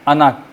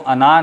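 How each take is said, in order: First: The final vowel is kept short. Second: The final vowel is held long. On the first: The speaker calls it right. "बल्कि अना, अना यूँ पढ़ते हैं" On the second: The speaker calls it wrong. "इसको अना नहीं कहते"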